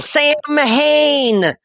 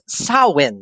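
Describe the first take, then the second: First: It is said as it is spelled, 'sam-hain'. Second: It is said like 'sow-en', without 'm' or 'h'. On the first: The speaker calls it wrong. "I'm going to say it right now just to annoy the hell out of your niece" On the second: The speaker calls it right. "it's actually pronounced Samhain, as in like S S O W E N"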